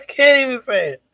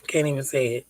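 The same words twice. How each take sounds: First: Real laugh breaking through the words, higher and louder. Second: Said in the usual way. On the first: Real, not acted. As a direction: laugh it out in disbelief. Repeats the line while laughing.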